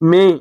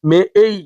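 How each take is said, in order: First: The vowel is a plain, steady e sound. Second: The vowel glides from e to ee. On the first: The speaker calls it wrong. "এটা ভুল পড়েছি।" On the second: The speaker calls it right. "এর সঠিক উচ্চারণ মে এই।"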